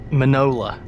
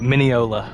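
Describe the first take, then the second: First: The first syllable sounds like 'man', three syllables. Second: The first syllable sounds like 'mine', four syllables. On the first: The speaker calls it wrong. "that was a terrible pronunciation. What did I say? Manola, like a like granola" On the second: The speaker calls it right. "Right, Mineola"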